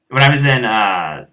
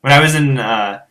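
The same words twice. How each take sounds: The two takes are said the same way.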